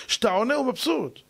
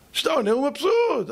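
First: Said in the usual way. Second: High, driven-home "כשאתה עונה הוא מבסוט"; emphatic repeat. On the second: Shown as a demonstration. Lecturer warning husbands against answering back, "מבסוט" said high and emphatic. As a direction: lift "מבסוט" high and punch it.

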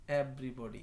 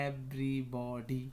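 First: Said in the usual way. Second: Everybody drawn out as ev-ry-bo-dy; very slow, each syllable of everybody stretched. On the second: Shown as a demonstration. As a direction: sound out everybody part by part for learners. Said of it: "এইভাবে উচ্চারণ করলাম".

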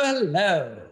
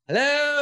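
First: Said in the usual way. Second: Hello swooped up high as a comic bit; signature greeting. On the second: Acted. Opening his sketch to a roaring crowd, Hello pitched high. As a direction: pitch the word Hello way up, showman style. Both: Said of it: "So that's why I started, I go".

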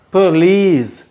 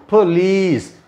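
The two takes are said the same way.

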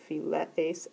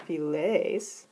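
First: "philees" with epsilon and eta kept apart, phi-le-ees in three syllables; uncontracted form. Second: "philees" merged to two syllables, phi-LEES with one long vowel; contracted form. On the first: Teacher reading the uncontracted verb form, vowels said separately. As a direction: give each vowel of "philees" its own beat, phi-LE-ees. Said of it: "before we do any contractions". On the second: Teacher giving the contracted form with a circumflex, vowels fused. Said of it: "it becomes a circumflex". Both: Shown as a demonstration.

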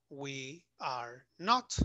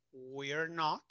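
First: "we are not" slowly, each word separate; extended we are not. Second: "we're" as one syllable, then "not"; contracted we're. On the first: Teacher showing the long form, "we are not" slow and uncontracted. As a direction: spell out "we are" in full, slowly. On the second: Teacher showing the first negative option, "we're" contracted. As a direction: run "we are" together into "we're". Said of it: "tenemos estas dos opciones". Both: Shown as a demonstration.

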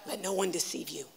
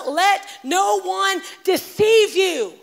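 First: Low, soft and intimate; hushed warning. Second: Slow, high and loud, every word hammered; booming warning. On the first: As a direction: drop it almost to a murmur. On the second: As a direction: proclaim it slowly like a prophet's warning. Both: Acted. Repeats Jesus' warning twice.

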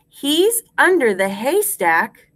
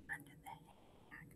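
First: Higher, full-voiced, rising at the end; measured rhyme recitation. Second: Barely audible whisper; whispered echo. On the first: Teacher gives class a line to repeat, higher and clear. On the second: Teacher leaves room for class to repeat, whispering faintly. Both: Shown as a demonstration.

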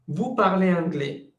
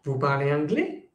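First: VOUS PARLEZ ANGLAIS with the pitch falling at the end; statement intonation. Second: VOUS PARLEZ ANGLAIS with the pitch rising sharply on ANGLAIS; question intonation. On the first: Teacher contrasting statement with question, falling statement intonation. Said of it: "entonación". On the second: Teacher contrasting question with statement, rising question intonation. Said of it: "ce n'est pas la même chose". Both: Shown as a demonstration.

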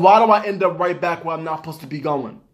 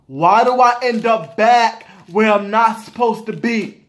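First: Said in the usual way. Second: Slow, punched words on "Why do I end up back"; exasperated emphasis. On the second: Real, not acted. Shopper questioning own Walmart habit, exasperated emphasis. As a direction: hammer "back" and "not supposed to be" slowly.

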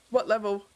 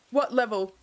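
No difference in how they are said.

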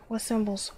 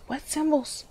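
First: Said in the usual way. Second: Higher, whining what symbols; mock-exasperated high whine; whiny. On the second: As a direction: complain to the game like a frustrated kid.

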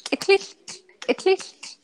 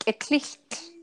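First: Sung, eklicht quick and high like a bird; sung, eklicht as bird call. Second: Eklicht broken into its sounds, raised pitch; eklicht said slower. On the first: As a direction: pitch eklicht well up, as the bird sings it. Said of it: "And so it sings". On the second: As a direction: show each sound of eklicht carefully. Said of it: "say it a little slower". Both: Shown as a demonstration.

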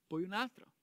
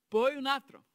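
First: Said in the usual way. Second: Poi un altro, più alto e forte sul "poi"; enfatico. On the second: Acted. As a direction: scandisci "poi" con forza. Counting the laps round Jericho. (conta i giri ad alta voce, con enfasi)

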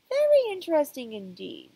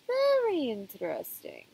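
First: Higher, louder pondering doctor; emphatic doctor. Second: Slow, musing therapist voice; drawn-out pondering doctor; thoughtful doctor. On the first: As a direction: push it up, more intrigued. Counselor repeats, more emphatic. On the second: Psychiatrist strokes beard, ponders. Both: Acted.

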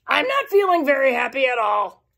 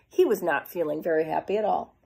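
First: A mopey, down voice; glum Kansas. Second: Said in the usual way. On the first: Acted. Kansas telling us how he feels, glum and mopey. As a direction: sulk through it like a bored kid. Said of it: "Because he said".

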